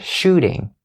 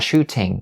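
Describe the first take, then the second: First: The middle consonant is a quick flapped D. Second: The middle consonant is a clear T sound. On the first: The speaker calls it right. "We turn the T sound into a flap D sound" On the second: The speaker calls it wrong. "Not shooting"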